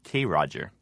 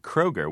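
First: The name is split into 'K' and 'Roger'. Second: The name is said as one word, 'Kroger'. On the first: "my brother and I, we called them K. Roger" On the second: "There's a chain of stores in the Midwest called Kroger"

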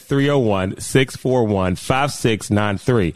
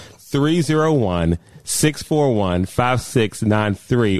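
First: The number is said fast. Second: The number is said slowly.

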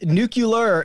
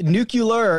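First: The word is said as 'nucular'. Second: The word is said as 'nucular'.

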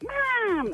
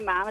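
First: It is said in a shrill, high-pitched voice. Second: It is said in a normal voice.

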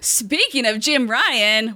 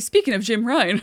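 First: It is said dramatically, with exaggerated feeling. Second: It is said flatly, without much feeling.

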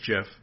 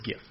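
First: The word starts with a soft j sound. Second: The word starts with a hard g sound. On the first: This is the creator's version, which sounds like the peanut butter. The speaker calls it wrong. "the actual guy who created it says it's Jif" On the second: This is the version the speaker uses for the images. The speaker calls it right. "So it's GIF"

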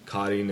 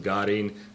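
First: The word begins with a voiceless K sound. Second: The word begins with a voiced G sound. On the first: This is the Eastern Armenian form. "is the Eastern pronunciation" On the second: This is the Western Armenian form. "So Western Armenians, the name of that city to you was"

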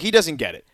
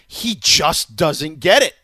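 First: It is said plainly, without strong emphasis. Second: It is said with strong, forceful emphasis.

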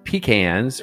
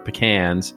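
First: It is said the Southern US way. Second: It is said the general American way. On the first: "which is the way they say it in the South" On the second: "how Americans in the normal parts of the world say it"

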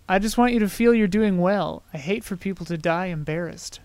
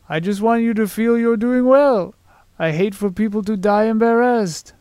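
First: It is said in his ordinary voice. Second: It imitates Fezzik's voice, sounding rather French.

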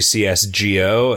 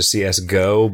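First: GO is spelled out as two letters. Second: GO is said as the word go. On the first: This is the intended reading of the name. The speaker calls it right. "that was just supposed to be CSGO" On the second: This is how people tend to read the name. The speaker calls it wrong. "you can't not read GO as Go"

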